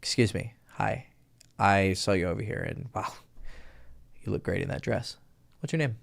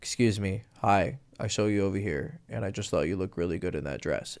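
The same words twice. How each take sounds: First: Softer and lower, slight lift; low with a little melody. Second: Softer and lower, dead flat; flat as a board, no life; too monotone. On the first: Coach demos the better low pickup line. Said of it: "now watch this". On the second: Coach demos the monotone to avoid. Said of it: "This is what you don't wanna do". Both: Shown as a demonstration.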